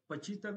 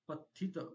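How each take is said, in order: First: The middle consonant is a 'ch' sound. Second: The middle consonant is a 'th' sound. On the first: The speaker calls it wrong. "पण ते सगळे जण इच्छितं म्हणतात त्याला आणि अं, पचितं म्हणतात" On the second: The speaker calls it right. "तर तिथे काय आहे खरं?"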